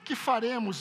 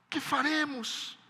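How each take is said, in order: First: It is asked in a calm, casual tone. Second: It is asked in a desperate, anguished tone. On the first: The speaker calls it wrong. "A pergunta deles não foi assim" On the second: The speaker calls it right. "Um desespero tomou o coração deles"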